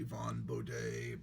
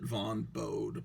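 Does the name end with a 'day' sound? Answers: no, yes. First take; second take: yes; no. First: The name ends with a final 'day' sound. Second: The name ends without a final 'day' sound. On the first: This is the proper pronunciation of the name. The speaker calls it right. "now I realize that it should be Von Baudet" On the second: This is how it was read silently as a kid. The speaker calls it wrong. "I always pr- have pronounced it Von Bode"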